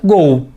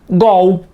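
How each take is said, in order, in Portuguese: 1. A vogal é fechada. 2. A vogal é aberta. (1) "como é estrangeira, mantivemos a pronúncia" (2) "Se fosse uma palavra da língua portuguesa, seria"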